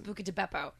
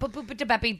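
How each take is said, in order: First: The first word has a k sound in the middle. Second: The first word has a p sound in the middle. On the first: The speaker calls it right. "well, Mom, it's Buca de Beppo" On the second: The speaker calls it wrong. "She was like, what?"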